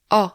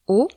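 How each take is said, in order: First: O said open, jaw dropped, as in "porte"; a wide, open "O". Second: O said closed, lips rounded tight, as in "mot"; a tight, closed "O" for the class. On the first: Teacher demonstrates the open French O. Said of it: "ou de manière ouverte". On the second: Teacher demonstrates the closed French O. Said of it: "de manière fermée". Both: Shown as a demonstration.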